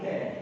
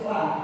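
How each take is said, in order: First: The vowel is a closer e sound. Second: The vowel is an open a sound. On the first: The speaker calls it wrong. "orang baca la tapi le" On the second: The speaker calls it right. "Harus la"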